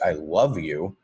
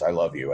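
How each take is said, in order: First: The emphasis falls on the word love. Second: No word is given special emphasis. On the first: The feeling is especially powerful. "change the emphasis to the word love" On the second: It is simply a matter of fact. "it's just a matter of fact statement"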